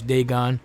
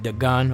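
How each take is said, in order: First: The name is said with an English pronunciation. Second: The name is said with a Hebrew pronunciation. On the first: This is the anglicized form. "in English" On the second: This is the more accurate original form. "That's really how you say it"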